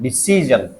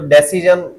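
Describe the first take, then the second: First: The stress is on the second syllable. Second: The stress is on the first syllable. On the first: The speaker calls it right. "ये सी पे लग रहा है" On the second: The speaker calls it wrong. "Stress सबसे आगे लगा रहा है"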